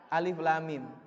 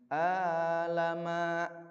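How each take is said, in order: First: Three separate letter names, each said in full. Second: Three short syllables run together as one word. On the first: The speaker calls it right. "Harusnya kan" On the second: The speaker calls it wrong. "Dia baca"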